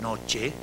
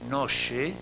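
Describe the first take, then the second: First: The ch is a full affricate, like tch. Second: The ch is an open fricative, like sh. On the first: "desde la africada normal en español, che de noche" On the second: "hasta la fricativa abierta, pero intensamente palatal"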